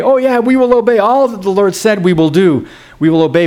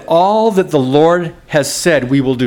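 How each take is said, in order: First: High-pitched eager pledge, easing down; mock the people's too-ready promise; glib eager agreement. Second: Said in the usual way. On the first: The people answering God with easy promises, glibly eager. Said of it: "Remember the people respond that way?". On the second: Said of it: "it said".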